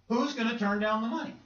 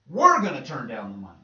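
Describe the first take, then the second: First: High, disbelieving question rising at the end; incredulous question. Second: WE'RE hit hard and loud, then falling; emphatic answer. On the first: Acted doubter asks about refusing money, incredulous. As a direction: ask it as if nobody would refuse. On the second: Preacher answers for believers refusing money, stress on We're. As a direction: punch the word We're as a firm refusal. Acted answer to the doubter's question. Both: Acted.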